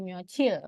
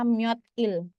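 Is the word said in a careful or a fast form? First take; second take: fast; careful. First: The word is said quickly with sounds merged. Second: The word is said slowly and carefully. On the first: "mereka ngomongnya cepet jadi myocil" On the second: "dia sebenarnya dari kata myodil"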